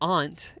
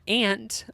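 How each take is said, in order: First: The word is said in a fancy, posh way. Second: The word is said in a plain, everyday way.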